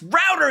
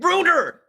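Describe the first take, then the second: First: The first vowel sounds like 'ow' in 'cow'. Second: The first vowel sounds like 'oo' in 'boot'. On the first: The speaker calls it right. "It's pronounced router" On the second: The speaker calls it wrong. "he keeps pronouncing it rooter"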